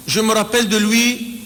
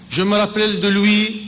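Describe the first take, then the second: No difference in how they are said.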